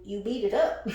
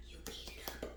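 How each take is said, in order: First: Said in the usual way. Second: Breathy whisper of the punchline; mock-secret whisper; whispered aside. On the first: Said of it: "repeats as whisper". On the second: Shown as a demonstration. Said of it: "whispered repeat".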